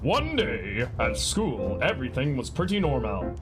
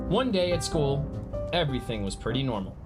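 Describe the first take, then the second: First: It is read in a put-on superhero voice. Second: It is read in a plain everyday voice. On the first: The speaker calls it right. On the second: The speaker calls it wrong.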